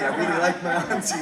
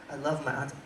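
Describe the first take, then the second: First: Louder, faster with laugh on like; like punched with a laugh as the fix; correcting. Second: Said in the usual way. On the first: Shown as a demonstration. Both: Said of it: "I don't love my auntie".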